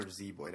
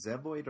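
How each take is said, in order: First: Put-on Zeboyd said ZEE-boyd; long-e pronunciation. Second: Zeboyd said ZEB-oyd; short-e pronunciation. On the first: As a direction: say Zeboyd with a long "ee" first syllable. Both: Shown as a demonstration. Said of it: "how do you pronounce it".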